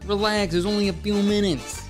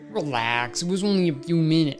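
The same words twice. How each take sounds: First: It is said in an Italian accent. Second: It is said in his plain voice.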